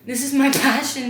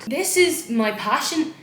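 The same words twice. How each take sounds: First: Loud, breaking into a laugh midway. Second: Loud, slow proud declaration; excited proud shout. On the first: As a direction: laugh through the word passion. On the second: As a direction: belt it out like a proud DJ. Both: Real, not acted. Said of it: "I feel so fucking cool".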